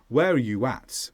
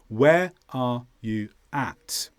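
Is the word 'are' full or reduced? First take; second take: reduced; full. First: The word 'are' is reduced to a schwa. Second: The word 'are' is said in full. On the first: "are will probably be weakened in fast English to uh, the schwa" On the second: "Pronounced as follows"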